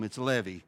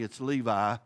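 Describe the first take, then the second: First: The name is said in a Hebrew way. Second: The name is said in a local American way. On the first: This is how people in Jerusalem say it. "If you're from Jerusalem" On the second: This is how locals in an American county say it. "if you're from Montgomery County"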